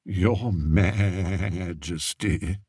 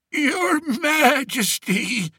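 First: Slow, softer, bleating sheep-like mockery; mock him softly like a sheep; soft sheep mimicry. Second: Put-on slow, much higher wheezy old-man voice; wheezed. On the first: Courtier mocking the shepherd to the king, soft bleating imitation. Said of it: "imitated him softly, making the old shepherd sound like a sheep". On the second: Old shepherd on his knees before the king, wheezing. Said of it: "he wheezed".

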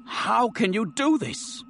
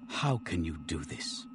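First: Jumps much higher, strained and slow; a desperate high plea after the hushed first take; anguished outcry. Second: Dropped low and much softer, slow; stunned murmur before the outburst; hushed disbelief. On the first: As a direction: let the repeat break upward in anguish. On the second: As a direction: say it almost to yourself in shock. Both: Acted. Colonel's anguished repeated question.

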